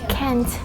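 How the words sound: It is said in an American accent.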